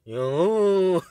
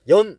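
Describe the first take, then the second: First: The syllable ends on the vowel, without n. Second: The syllable ends with a final n sound. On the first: The speaker calls it wrong. "발음이 안 되니까" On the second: The speaker calls it right. "발음을 연 해봐 하면"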